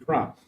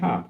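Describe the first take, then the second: First: The word starts with a kr cluster. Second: The word starts with a plain k sound. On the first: This is the form expected in Bangkok. "they say it's supposed to be crop" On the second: This is the local northern form. "up here we say cop"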